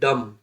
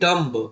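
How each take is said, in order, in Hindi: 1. अंत में b की कोई आवाज़ सुनाई नहीं देती। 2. अंत में b की आवाज़ उच्चारित होती है। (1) "लेकिन हम क्या पढ़ते हैं? पढ़ते हैं डम" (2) "हमें पढ़ना तो चाहिए डम्ब"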